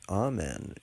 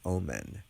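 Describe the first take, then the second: First: The word sounds like 'amen'. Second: The word sounds like 'omen'. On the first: The speaker calls it right. "the correct pronunciation" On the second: The speaker calls it wrong. "mispronounce it and and call it"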